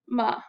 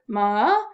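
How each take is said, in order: First: The pitch stays low and flat. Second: The pitch dips down and then rises.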